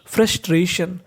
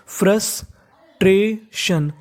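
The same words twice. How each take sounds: First: Said in the usual way. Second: frustration very slowly, in three separate pieces; teacher slowly breaking frustration apart; syllable by syllable. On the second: Shown as a demonstration. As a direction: sound out frustration with clear gaps between syllables.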